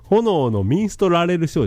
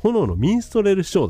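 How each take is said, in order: First: An extra 'ra' syllable is heard inside 'minstrel'. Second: No extra 'ra' syllable is heard inside 'minstrel'. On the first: The speaker calls it wrong. "ラはいらないの" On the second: The speaker calls it right. "炎のミンストレルショーが正式名ね"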